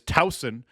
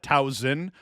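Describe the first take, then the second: First: The middle consonant is a hissing S sound. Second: The middle consonant is a buzzing Z sound. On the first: The speaker calls it right. "with a soft S, not that hard Z-sounding S" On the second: The speaker calls it wrong. "I pronounced Towson wrong"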